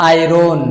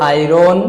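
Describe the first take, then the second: The two takes are said the same way.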